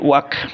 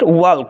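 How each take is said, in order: First: The L sound is silent in the word. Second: The L sound is pronounced in the word. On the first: The speaker calls it right. "It will be ওয়াক" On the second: The speaker calls it wrong. "This is not ওয়াল্ক"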